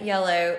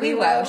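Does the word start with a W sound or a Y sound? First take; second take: Y sound; W sound. First: The word begins with a Y sound. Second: The word begins with a W sound. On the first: This is the standard word. "It wasn't yellow" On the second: This is a small child's version. "Sorry, Wewo"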